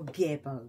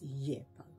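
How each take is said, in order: First: The word begins with a hard g sound. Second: The word begins with a y sound. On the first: "whatever way you want to say it" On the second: "a lot of people don't say the G. It's Yebo"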